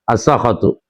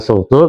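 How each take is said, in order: First: Both of the first two consonants take the vowel a. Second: First vowel is u; the second consonant has no vowel. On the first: "bi fatihima dan dengan fathah keduanya" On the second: "bidomisin dengan domasin wa iskanil kha"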